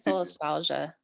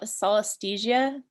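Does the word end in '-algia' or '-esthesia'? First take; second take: -algia; -esthesia. First: The word ends with an "-algia" sound. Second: The word ends with an "-esthesia" sound. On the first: The speaker calls it right. "I think it's solastalgia" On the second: The speaker calls it wrong. "I always say it wrong. I always say sol- solasthesia"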